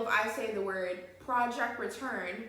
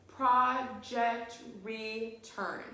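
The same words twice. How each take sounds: First: Said in the usual way. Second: Very slow, each syllable pulled apart; teacher to class, counting syllables: very slow and drawn out. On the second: Shown as a demonstration. Spell out project return beat by beat. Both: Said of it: "put your hand under your chin and say".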